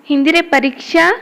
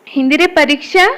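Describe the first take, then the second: Both takes have the same delivery.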